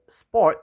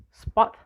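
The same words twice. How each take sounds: First: Said in the usual way. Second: Sport said short, as "spot"; shortened vowel. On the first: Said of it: "the word sport is heard as spot". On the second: Shown as a demonstration. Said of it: "random alteration of long and short versions".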